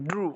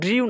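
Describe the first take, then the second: First: The vowel is a plain oo sound. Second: The vowel has a y glide before oo. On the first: The speaker calls it right. "এই ওয়ার্ডটার সঠিক উচ্চারণ হচ্ছে ড্রু" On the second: The speaker calls it wrong. "ড্রিউ না"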